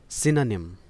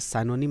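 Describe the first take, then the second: First: The first syllable has a short 'ih' vowel. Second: The first syllable has a long 'eye' vowel. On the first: The speaker calls it right. "इसका pronunciation है सिनोनिम" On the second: The speaker calls it wrong. "आप इसे साइनोनिम ना पढ़ें"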